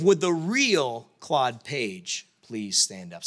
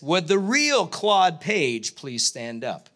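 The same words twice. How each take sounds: First: Slow, grand host call, a touch lower; game show host line. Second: Slow, drawn-out host announcement; game show host line. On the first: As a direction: stretch the catchphrase like a TV host. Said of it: "this idea of". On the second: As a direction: announce it like a TV host, dragging each word. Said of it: "this is the line that I was looking for". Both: Retold or imitated.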